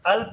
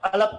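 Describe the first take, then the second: First: The l and p join with no vowel between. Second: An extra vowel is inserted between l and p. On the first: The speaker calls it right. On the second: The speaker calls it wrong.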